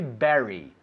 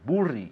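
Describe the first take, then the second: First: It is said with normal English sounds. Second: It is read with Spanish letter sounds. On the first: The speaker calls it right. "But we say bury" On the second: The speaker calls it wrong. "in Spanish will be burri"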